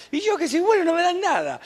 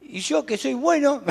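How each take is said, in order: First: High, whiny put-on son's complaint; imitating his son. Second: Said in the usual way. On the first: Pastor imitating his son complaining about God, high whiny voice. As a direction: mimic a sulky son who feels cheated. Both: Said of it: "como decía un hijo mío".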